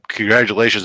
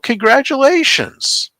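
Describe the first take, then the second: First: It is said with low, flat enthusiasm. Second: It is said with high, excited enthusiasm. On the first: The news was not what was hoped for. "well, congratulations" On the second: The news is welcome. "alter the level of enthusiasm"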